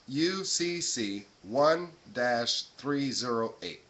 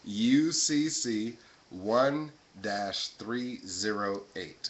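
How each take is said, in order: First: It is said at normal speed. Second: It is said very slowly.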